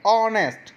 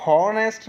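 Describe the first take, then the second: First: ऑनेस्ट said with no h, opening straight on ओ; silent h. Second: हॉनेस्ट said with a clear h breath at the start; wrong h sound. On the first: Teacher showing pupils the right ऑनेस्ट, h silent. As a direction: start ऑनेस्ट on the vowel, no breath before it. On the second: Teacher showing pupils the wrong हॉनेस्ट with h. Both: Shown as a demonstration. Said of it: "हॉनेस्ट नहीं बोलेंगे".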